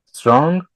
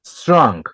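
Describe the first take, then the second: First: "Strong" said higher with a rising tune; rising model word. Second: "Strong" said with a clear falling tune; falling model word. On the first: Teacher prompts students to repeat Strong, rising and higher. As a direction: prompt the class with "Strong", lifting at the end. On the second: Teacher models Strong for students to repeat, falling tune. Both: Shown as a demonstration. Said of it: "One, two, three".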